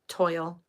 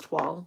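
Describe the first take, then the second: First: The vowel sounds like 'oil', rhyming with boil. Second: It starts with 'tw' and sounds like 'twahl'. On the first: The speaker calls it wrong. "it looks like toil" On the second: The speaker calls it right. "but it's twall"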